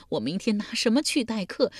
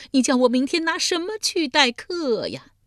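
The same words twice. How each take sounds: First: Raised-pitch lament, held back in volume; tearful wail. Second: Full-blown bawling. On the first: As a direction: wail the question before the big outburst. (带着哭腔，提高音调哭问) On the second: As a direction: let the question burst into a howl, falling at the end. (嚎啕大哭，拖长声音高喊) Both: A narrator's reading. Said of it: "嚎啕大哭道".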